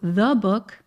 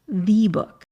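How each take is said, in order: First: The vowel in 'the' is a short uh. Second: The vowel in 'the' is a full ee. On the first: The speaker calls it right. "you turn it into a schwa sound. So the book" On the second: The speaker calls it wrong. "not the book. You're never going to hear an American say"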